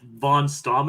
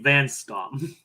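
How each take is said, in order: First: The first vowel sounds like 'on'. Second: The first vowel sounds like 'an'. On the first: The speaker calls it wrong. "you might have heard Buford's name as Von Stom in this episode" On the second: The speaker calls it right. "it's supposed to be Van Stom"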